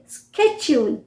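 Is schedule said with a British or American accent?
American. It starts with a 'sk' sound, American style.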